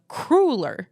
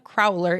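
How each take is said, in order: First: The word rhymes with ruler. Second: The word does not rhyme with ruler. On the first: The speaker calls it right. "take the word ruler ... and put either a C or a K in front of it" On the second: The speaker calls it wrong. "It's not a crowler"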